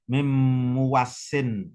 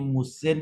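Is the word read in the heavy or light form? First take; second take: heavy; light. First: The word is longer, with a doubled consonant. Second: The word is short, with no doubled consonant. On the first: "dan juga bisa dibaca berat" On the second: "ini bisa dibaca ringan"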